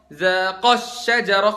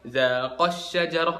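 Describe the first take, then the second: First: The long vowel of the dual ending is stressed. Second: The long vowel of the dual ending is unstressed. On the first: Two people did the action. The speaker calls it right. "kan dua orang, Adam sama Hawa" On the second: One person did the action. The speaker calls it wrong. "bukan zaqash syajarah, Adam sendirian gitu kan"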